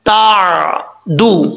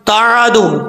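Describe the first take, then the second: First: The middle consonant is held steadily without bounce. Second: The middle consonant is released with a bounce. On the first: The speaker calls it right. "कैसे पढ़ना है तादू" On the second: The speaker calls it wrong. "अक्सर लोग कलकला कर जाते हैं, कैसे तादू तादू, ये कलकला है जो कि गलत है"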